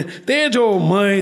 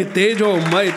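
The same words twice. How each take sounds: First: તેજોમય stretched long and slow; drawn-out praise. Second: Said in the usual way. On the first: Shown as a demonstration. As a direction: linger on every sound of તેજોમય.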